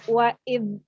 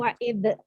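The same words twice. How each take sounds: First: The final dh sound is held without any echo. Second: The final dh sound is bounced with an echo. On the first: The speaker calls it right. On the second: The speaker calls it wrong. "dzal jangan dipantulkan ketika dia sukun ya. Jadi jangan"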